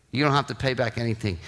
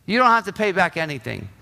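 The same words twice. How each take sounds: First: Low, soft and gentle; a king quietly waving away the debt, soft and low; gentle forgiving king. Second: Said in the usual way. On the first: Acted. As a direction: let him off tenderly, hushed and low.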